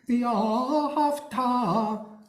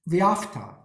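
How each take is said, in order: First: Every vowel is clearly pronounced, stress at end. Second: The vowels are slurred and the word shortened. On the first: The speaker calls it right. "V'ahavta is really the correct pronunciation" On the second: The speaker calls it wrong. "the tendency is to slur vowels"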